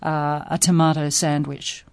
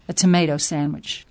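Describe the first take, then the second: First: Tomato is said with an Australian accent. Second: Tomato is said with an American accent. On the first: This is the speaker's usual way of saying it. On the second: This is adjusted so local shoppers understand.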